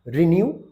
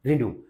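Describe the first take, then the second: First: रिन्यू ending in "new" with y-glide; British pronunciation. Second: रिन्यू as "ri-noo", no y-glide; American pronunciation. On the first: Teacher giving the first form, British pronunciation. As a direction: say रिन्यू as "ri-nyoo". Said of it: "और American English में". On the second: Teacher giving students the American pronunciation. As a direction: say रिन्यू with plain "oo". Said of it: "American English में रिन्यू". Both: Shown as a demonstration.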